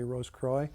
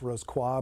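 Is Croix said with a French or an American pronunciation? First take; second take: American; French. First: Croix is said the American way. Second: Croix is said the French way.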